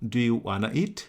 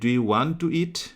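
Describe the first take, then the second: First: 'Want to' is reduced to 'wanna'. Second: 'Want to' is said in full as two words. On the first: An informal, quicker spoken form. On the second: The standard full form.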